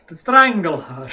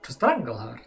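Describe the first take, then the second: First: To strangle her punched loud in a mock German accent. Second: Said in the usual way. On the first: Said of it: "I can't hold a German accent for long". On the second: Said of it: "I can't hold a German".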